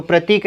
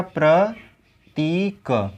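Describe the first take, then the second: First: प्रतीक run quickly with a short i. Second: प्रतीक very slowly as प्र, ती, क; syllable by syllable. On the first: Teacher showing students the misspelling, short-i प्रतीक. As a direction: keep the ती of प्रतीक brief. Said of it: "ऐसे नहीं लिखा जाएगा". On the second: Teacher spelling it out for students, slow long-ī प्रतीक. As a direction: draw out ती and part the sounds of प्रतीक. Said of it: "प्रतीक कैसे लिखा जाएगा". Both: Shown as a demonstration.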